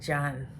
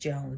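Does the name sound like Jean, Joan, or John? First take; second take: John; Joan. First: The name is said with a short 'o' vowel. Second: The name is said with a long 'oh' vowel. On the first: "I'm pretty sure it's like John" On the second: "to you and me is Joan"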